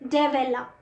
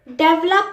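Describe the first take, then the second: First: The middle vowel is fully pronounced. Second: The middle vowel is dropped. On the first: The speaker calls it right. "दोनों ई की ए वाली pronunciation" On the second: The speaker calls it wrong. "डेवलप नहीं कहते हम"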